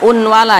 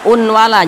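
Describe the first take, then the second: First: A separate n sound is heard before w. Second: A separate n sound is heard before w.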